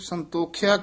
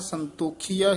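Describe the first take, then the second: First: The vowel after 'kh' is short. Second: The vowel after 'kh' is long. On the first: The speaker calls it wrong. "ਕਈ ਪਾਠੀ ਸਿੰਘ ਸੰਤੋਖਿਆ ਕਹਿ ਜਾਂਦੇ ਨੇ" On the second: The speaker calls it right. "ਇਸ ਤਰ੍ਹਾਂ ਸੰਤੋਖੀਆ ਹੀ ਉਚਾਰਨ ਕਰਨਾ ਹੈ"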